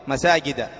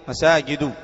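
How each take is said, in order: Both takes have the same delivery.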